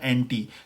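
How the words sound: It ends with an 'ee' sound, British style.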